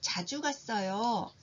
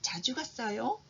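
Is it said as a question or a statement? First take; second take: statement; question. First: It is said as a statement, falling. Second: It is said as a question, rising. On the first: It answers the question. "자주 갔어요 라고 말한다면" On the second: It asks the question. "라는 질문에 대한 답이라고 할 수 있습니다"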